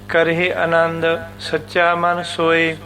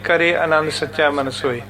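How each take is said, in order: First: The first word is said fully, as 'karahi'. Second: The first word is said short, as 'kare'. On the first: The speaker calls it right. "ਸੋ ਇਸ ਨੂੰ ਬੋਲਾਂਗੇ ਸੀ ਕਰਹਿ" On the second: The speaker calls it wrong. "ਕਰੇ ਨਹੀਂ ਕਹਿਣਾ"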